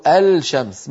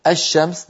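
First: الشمس slowly as "al-shams", L held before sh; wrongly sounded lam. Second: الشمس as "ash-shams", L merged into a doubled sh; assimilated lam. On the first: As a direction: say الشمس with a clear unmerged L, "al-shams". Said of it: "ولا نقول". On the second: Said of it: "ندغم اللام في الشين". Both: Shown as a demonstration.

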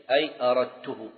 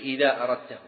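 First: أردته ending in "-tuhu", u after the ta; damma on the ta. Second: أردته ending in "-tahu", a after the ta; fatha on the ta. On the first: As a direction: say أردته as "aradtuhu", first person. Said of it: "فإن أتيت بأي تضم". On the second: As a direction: say أردته as "aradtahu", second person. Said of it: "وإذا أتيت بإذا تقول". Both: Shown as a demonstration.

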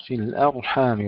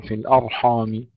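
First: الأرحام with thin front vowels on hamza and ح; light hamza and haa. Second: الأرحام with thick, dark hamza and ح; wrong heavy haa. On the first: Tajweed teacher modelling the right way, light ح in الأرحام. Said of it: "ترقيق الحاء". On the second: Tajweed teacher showing the error, over-heavy الأرحام. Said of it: "ولا نقول". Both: Shown as a demonstration.

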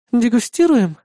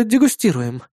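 First: "Дегустируем" higher, as a doubting question; questioning echo. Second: Said in the usual way. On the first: Acted. Partner doubting his excuse, "Дегустируем" as a high question.

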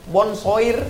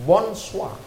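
First: "bonsoir" read letter by letter, with an r; rising, as-spelled "bonsoir"; spelling pronunciation. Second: "bonsoir" said as bonsuwa; French "bonsoir" with a silent r; soft, French-style "bonsoir"; French pronunciation. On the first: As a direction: say "bonsoir" as it is written. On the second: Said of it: "Tulisannya bonsoir". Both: Shown as a demonstration.

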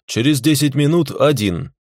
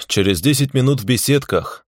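First: Минут stressed higher, firm falling end; firm repeat. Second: Lazy. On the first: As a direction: hit минут firmly in через десять минут один. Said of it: "Двадцатый раз повторять не буду". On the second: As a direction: say через десять минут в беседках lazily, falling. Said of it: "лениво ответил я ему". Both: A narrator's reading.

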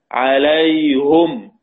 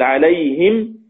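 First: عليهم said "alayhum", very slowly; damma on the ha. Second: عليهم said "alayhim"; kasra on the ha. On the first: Teacher reciting as Hamza reads, عليهم as slow "alayhum". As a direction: stretch عليهم to a "-hum" ending. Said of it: "إلا حمزة قرأها بالضم". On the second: Teacher giving the ya sakina example, عليهم as "alayhim". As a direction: end عليهم on a clear "-him". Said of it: "إذا كان قبلها ياء ساكنة". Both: Shown as a demonstration.

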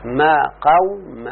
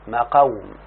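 First: Teacher slowly spelling out ما قوم; slow spelled-out form. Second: Said in the usual way. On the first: Shown as a demonstration. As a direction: stretch out ما قوم syllable by syllable for the students. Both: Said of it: "صارت يا شيخنا، ها؟".

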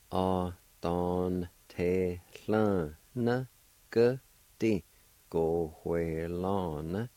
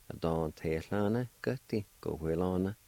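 First: "a don te lan ge di, go hue lan" drawn out slowly; slow demo. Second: Said in the usual way. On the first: Shown as a demonstration. Teacher slowly joining all parts of the word for learners. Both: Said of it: "And all together".

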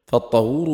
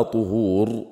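First: فالطهور with a short "a" after ط, "tahur"; fatha vowel. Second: طهور with a short "u" after ط, "tuhur"; damma vowel. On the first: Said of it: "بالفتح". (فالطهور بفتح الطاء) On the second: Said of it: "بالضم". (طهور بضم الطاء) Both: Shown as a demonstration.

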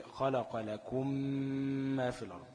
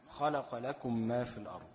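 First: لكم ما read very slowly, lips pressed firmly, a held nasal mm into ما; nasal ghunna on merged mim. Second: Said in the usual way. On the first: Shown as a demonstration. Teacher showing students the lip-pressed ghunna in لكم ما. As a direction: hold the doubled ميم in لكم ما with a long humming ghunna. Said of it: "هتطبق شفتين وتتكة جامد كمان". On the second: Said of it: "لكم ميم ساكنة وبعديها ميم متحركة".

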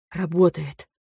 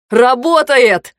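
First: Soft, barely voiced realisation; quiet dawning relief; hushed disbelief. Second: Loud, high, drawn-out cry; elated shout. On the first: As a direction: say it softly, hardly believing it. First hushed realisation that it works. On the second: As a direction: shout it out slowly in triumph. Same word, now shouted in joy. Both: A narrator's reading.

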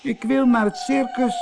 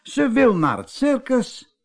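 First: Very high, tearful wail; sobbing. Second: High, amazed exclamation; astonished cry. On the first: Little mermaid says she wants the circus, sobbing. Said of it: "snikte ze". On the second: Wife echoes the mermaid's circus wish, astonished. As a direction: call it out in high-pitched astonishment. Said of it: "riep Ida". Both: A narrator's reading.

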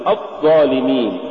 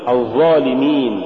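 First: الظالمين with the ظ stopped short; cut-off za. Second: Said in the usual way. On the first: Shown as a demonstration. Teacher warning against an error, cut-off ظ in الظالمين. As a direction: choke off the doubled ظ in الظالمين. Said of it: "ولا تقل". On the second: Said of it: "قل".

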